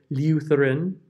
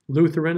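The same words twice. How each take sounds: First: The vowel is said with a y glide. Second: The vowel is said without a y glide.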